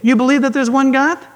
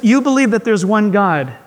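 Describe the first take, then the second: First: It is said as a mocking, incredulous question. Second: It is said as a plain, sincere statement. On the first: The point seems obvious and not worth saying. "our teens would tell us, they would read it this way" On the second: The verse states a fact. "It says"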